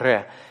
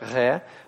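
First: The r is trilled with the tongue tip. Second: The r is a guttural fricative in the throat. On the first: The speaker calls it right. "более правильным считается произношение такое, как в русском языке «ре»" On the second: The speaker calls it wrong. "по такому вот варианту гортанному, фрикативному, фрикативное «ре»"

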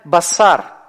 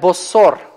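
First: Both vowels are pronounced as 'a'. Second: Both vowels are pronounced as 'o'. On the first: "две долгие гласные «а»" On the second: "именно так галилеяне произносили долгую «а», как «о»"

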